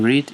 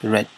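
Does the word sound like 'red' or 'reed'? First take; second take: reed; red. First: The vowel is long, like in 'reed'. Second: The vowel is short, like in 'red'. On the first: It is the present tense form. The speaker calls it wrong. "Instead of saying read" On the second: It is the past tense form. The speaker calls it right. "it's read"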